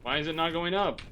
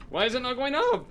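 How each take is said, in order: First: Annoyed question, a bit louder; asking the game in rising frustration; frustrated. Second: High, loud exasperated cry; exasperated yell. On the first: Streamer at the stuck cannon, annoyed. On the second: Streamer yelling at the broken cannon, exasperated. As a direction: yell it at the screen in disbelief. Same question repeated, louder. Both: Real, not acted.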